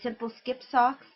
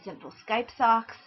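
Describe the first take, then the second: First: The middle word has a short 'i' vowel. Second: The middle word has a long 'eye' vowel. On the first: The speaker calls it right. "This is the Simple Skip socks" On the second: The speaker calls it wrong. "frequently mispronounced as"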